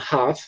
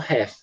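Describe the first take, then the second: First: It is said in a British accent. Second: It is said in an American accent. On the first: "para o inglês britânico, eles falam half" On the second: "No inglês americano, geralmente eles falam half"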